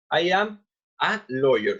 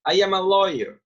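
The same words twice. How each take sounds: First: "I am a lawyer" slowed, article "a" set apart; slow model repeat. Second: Said in the usual way. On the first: Shown as a demonstration. Teacher shows students the article in the example, slow model repeat. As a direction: spell out "I am... a lawyer" word by word.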